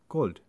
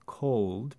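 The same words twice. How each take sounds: First: The vowel is a single pure sound. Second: The vowel glides and is lengthened.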